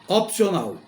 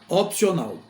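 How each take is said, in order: Both takes have the same delivery.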